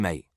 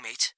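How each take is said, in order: First: Said in the usual way. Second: "mate" in a higher, lightly Welsh lilt; a hint of Welsh on "mate"; Welsh accent.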